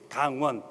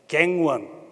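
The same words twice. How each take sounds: First: It is said with Korean vowels, unlike gang won. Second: It sounds like the English words gang won. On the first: The speaker calls it right. "The exact pronunciation is Gangwon" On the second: The speaker calls it wrong. "Most of the foreigners pronounce Gangwon as Gangwon. so it sounds like the gang defeat the police"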